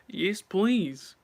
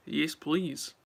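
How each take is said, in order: First: Louder, higher, gleeful "please" with a falling end; eager yes please. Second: Said in the usual way. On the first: Shown as a demonstration. Listing buffet food to viewers, eager and louder. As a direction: hungrily accept more food. Listing foods she piles on.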